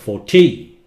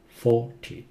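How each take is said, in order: First: The second syllable is louder. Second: The first syllable is louder. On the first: The speaker calls it wrong. "If you say forty, they may misunderstand" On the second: The speaker calls it right. "four louder"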